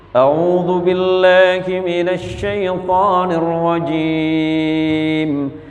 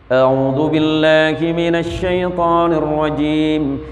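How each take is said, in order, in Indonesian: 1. Dibaca dengan perlahan dan hati-hati. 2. Dibaca dengan tempo sedang. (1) "Kalau tartil itu begini baca" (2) "Agak cepat sedikit"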